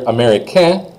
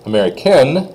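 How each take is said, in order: First: Rising américain, no final N; silent N. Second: Américaine closing on a clear N; N sounded. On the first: Teacher models American for a boy, N silent. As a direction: end américain on the vowel, N unsaid. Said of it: "you don't say the N". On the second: Teacher models American for a girl, N pronounced. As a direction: land on the final N of américaine. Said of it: "you do say the N". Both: Shown as a demonstration.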